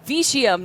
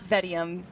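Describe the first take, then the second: First: The first vowel sounds like 'it'. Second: The first vowel sounds like 'eh'. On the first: The speaker calls it right. "it's Vitium" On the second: The speaker calls it wrong. "not Vetium"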